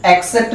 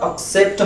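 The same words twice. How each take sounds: First: "एक्सेप्ट" opening with eh; wrong eh start. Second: "एक्सेप्ट" opening with a short schwa; right schwa start. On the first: Teacher contrasting wrong versus right. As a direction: say "एक्सेप्ट" as the mistake. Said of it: "एक्सेप्ट नहीं होता". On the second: Teacher modelling the right sound. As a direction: say "एक्सेप्ट" correctly. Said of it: "एक्सेप्ट होता है". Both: Shown as a demonstration.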